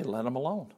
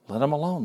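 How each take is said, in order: First: Hushed, settled command "Let 'em alone"; quiet firm dismissal. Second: Said in the usual way. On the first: Acted. Jesus quietly telling disciples to leave them be. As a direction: let 'em alone said softly, falling calmly. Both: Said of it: "Jesus had to say".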